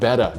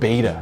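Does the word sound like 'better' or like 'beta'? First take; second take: better; beta. First: The word sounds like 'better'. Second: The word sounds like 'beta'. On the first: The speaker calls it right. "you got to pronounce it like betta" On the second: The speaker calls it wrong. "not beta"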